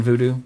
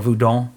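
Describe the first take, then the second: First: Said in the usual way. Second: "voodoo" said as the Haitian name Vodou; careful, corrected saying of "voodoo"; native pronunciation. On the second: Shown as a demonstration. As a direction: say "voodoo" the way it is actually pronounced in Haiti. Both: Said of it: "as it's pr-, actually pronounced".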